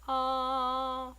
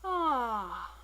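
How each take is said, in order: First: The pitch stays long and level. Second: The pitch drops sharply downward. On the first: "the first tone is long and flat" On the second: "The fourth is the falling tone"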